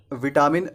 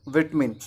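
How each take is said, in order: First: विटामिन with long middle "ta"; three syllables in विटामिन, "vi-TAA-min"; wrong pronunciation. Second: विटमिन as "VIT-min"; British pronunciation. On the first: Teacher shows the mistake, विटामिन as "vitaamin". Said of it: "विटामिन नहीं होता है". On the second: Teacher gives the correct form, विटमिन as "vit-min". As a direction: squeeze out the middle vowel of विटमिन. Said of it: "इसका सही उच्चारण होता है". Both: Shown as a demonstration.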